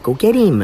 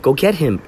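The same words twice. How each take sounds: First: The word him is said as eem, no h. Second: The word him starts with an h sound. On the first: "She'd say, go get him. It was like, eem, E-E-E-M. There was no H" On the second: "she wouldn't say him"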